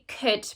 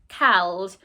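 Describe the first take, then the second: First: It is said normally, with no L sound. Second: It is said as spelled, with an L sound. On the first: It is said the way people really say it. The speaker calls it right. "We'd say could" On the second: It is said the way it is spelled, to help remember the spelling. The speaker calls it wrong. "looks like cowled"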